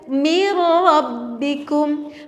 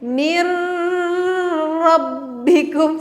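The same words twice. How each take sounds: First: The joined r sound is plain, without hum. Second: The joined r sound carries a nasal hum. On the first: The speaker calls it right. "Contoh yang betul adalah mir rabbikum" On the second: The speaker calls it wrong. "kalau misalkan kita bacanya gini nih, ... salah. Karena ro-nya tuh gak boleh ada dengung"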